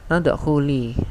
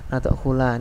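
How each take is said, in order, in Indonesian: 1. Kata ini diakhiri dengan vokal i. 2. Kata ini diakhiri dengan vokal a. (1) "kenapa di sini harokatnya kasrah" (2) "lamnya juga harokat fathah, salah"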